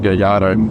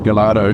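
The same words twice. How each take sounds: First: The double L is sounded as a Y. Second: The double L is sounded as an L. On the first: The speaker calls it right. "the double L is actually pronounced as a Y. So the correct pronunciation is" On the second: The speaker calls it wrong. "it's easy to think it's pronounced Gallardo due to the L"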